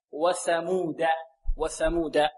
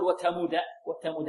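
First: وثمود with a clear TH as in "thin", "wathamuda"; tongue tip at the teeth for ث in وثمود; correct ث. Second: وثمود said with a plain T for ث, "watamuda"; wrong ث as ت. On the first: Teacher models for students, lisped TH in وثمود. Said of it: "هكذا ثاء". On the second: Teacher shows students the mistake, T sound in وثمود. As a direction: harden the ث of وثمود into ت. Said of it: "لا نقول". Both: Shown as a demonstration.

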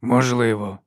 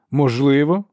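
First: Said in the usual way. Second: Irritated echo, higher and louder, rising into a question; irritated repetition. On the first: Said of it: "повторив архілектор". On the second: A narrator's reading. Archlector repeats the inquisitor's word as if it could do harm, irritated. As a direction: throw the word back with annoyance, pitch climbing. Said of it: "роздратовано, немов саме слово могло заподіяти шкоду".

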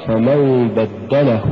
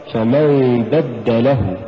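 First: بدله as one word, push on the د; slow "فمن بدله", pulse on دَّ; correct recitation. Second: بدله with the push on ل, as بدَّ له; slow "فمن بدله", لـه split off; wrong split reading. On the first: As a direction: recite بدله joined, ل unstressed. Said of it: "إنما تقرأ". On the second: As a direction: stress بدله as two words. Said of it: "فلا تقرأ". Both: Shown as a demonstration.

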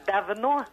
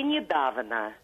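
First: Давно with a raised, stressed final но; final-syllable stress. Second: Недавно stressed on the middle да; stress before the ending. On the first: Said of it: "ударение на последний слог". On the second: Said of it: "и почему так". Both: Shown as a demonstration.

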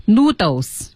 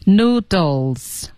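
First: "noodles" with the L dropped, like noo-dohs; noodles without L. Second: "Noodles" with a clear L before the final s; slow "Noodles", sounding the L. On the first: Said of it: "千万别读成noodles". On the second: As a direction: let the L be heard in "Noodles". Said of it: "有L音". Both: Shown as a demonstration.

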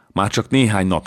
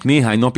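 First: Said in the usual way. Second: "néhány" pushed higher and louder, rising; stress on néhány. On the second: Acted. Francesco pleading with Eszter to wait, stressing "néhány". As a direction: lean on "néhány nap", lifting it up.

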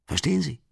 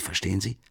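First: "Verstehen" jumps high, then falls away; insistent high question. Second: Said in the usual way. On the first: Acted. Marmeladov presses Raskolnikov, "Verstehen" pitched high and falling. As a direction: push the question "Verstehen Sie?" up hard. Drunk man pressing his listener.

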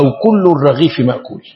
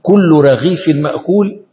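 First: الرغيف said with the article ال, falling at the end; كل الرغيف with a clear ال, settling down; "كل الرغيف مأكول" with the article marked; definite form. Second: كل رغيف said without the article, rising at the end; slow, careful كل رغيف with no ال; "كل رغيف مأكول" spelt out slowly with no article; indefinite form. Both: Shown as a demonstration. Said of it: "في فرق بين أن تقول".

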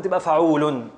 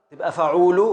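First: "فعول" closed with -un; stop on sukun. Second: "فعول" ending on an open -u; stop on a vowel. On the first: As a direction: say "فعول" as fa-uu-lun. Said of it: "نقف على سكون". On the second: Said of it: "نقف على حركة". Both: Shown as a demonstration.

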